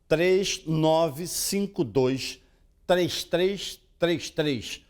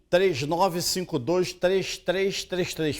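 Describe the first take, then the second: First: The number is read slowly. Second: The number is read quickly. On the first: The speaker calls it right. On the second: The speaker calls it wrong.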